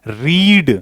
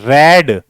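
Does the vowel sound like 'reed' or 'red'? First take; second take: reed; red. First: The vowel is long, like 'reed'. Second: The vowel is short, like 'red'. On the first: It is the present form. "वी one वी टू वी three तीनों की spelling same रहती है, लेकिन उच्चारण अलग होता है" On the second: It is the past form. "लेकिन उच्चारण अलग होता है"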